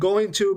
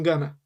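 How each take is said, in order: First: The two words are said fully and separately. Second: The two words are linked into one reduced sound.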